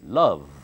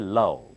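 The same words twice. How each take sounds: First: It ends with a buzzing v sound. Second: It ends with a b-like sound. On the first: The speaker calls it right. "Upper teeth bites the lower lip and blow out" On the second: The speaker calls it wrong. "Do not say love"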